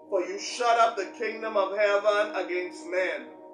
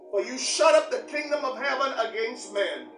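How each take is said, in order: First: The line is read slowly and deliberately. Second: The line is read at a normal pace.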